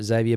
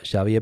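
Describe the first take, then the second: First: Xavier corrected to English "ZAY-vee-uh"; English pronunciation. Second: Xavier said Spanish-style with an SH start; Spanish pronunciation. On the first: Streamer correcting a viewer's name to English-style Xavier, ZAY-vee-uh. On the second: Streamer slipping back into Spanish pronunciation of Xavier for a viewer. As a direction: say Xavier as "SHAH-vee-eh". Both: Real, not acted. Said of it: "using the Spanish pronunciation there".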